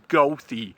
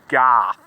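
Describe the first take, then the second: First: The name ends with an added final vowel. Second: The name ends without any final vowel. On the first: This is how most people say the name. The speaker calls it wrong. "Everybody says it's pronounced Gothy" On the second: This is how the bus line says the name. The speaker calls it right. "I think it's actually pronounced Goth, not Gothy"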